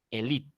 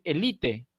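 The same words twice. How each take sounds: First: "elite" as e-LEET, final e silent; two-syllable "elite", ending on a t; foreign reading of elite. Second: "elite" in three syllables, final e sounded; "elite" read as a Castilian word, ending in -te; Spanish reading of elite. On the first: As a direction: drop the last e of "elite", accent on the i. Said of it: "La E se suprime". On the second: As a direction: say "elite" as written, e-LI-te. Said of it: "la leo como castellano". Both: Shown as a demonstration.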